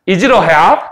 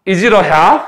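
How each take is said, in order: No difference in how they are said.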